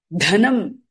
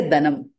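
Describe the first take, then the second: First: "Dhanam" with a puff of air on d; aspirated dh. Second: "dhanam" said da-nam with plain d; no puff of air on the d of "dhanam"; unaspirated wrong take. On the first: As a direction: breathe out on Dh, short a in "Dhanam". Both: Shown as a demonstration. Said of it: "You can't say dhanam".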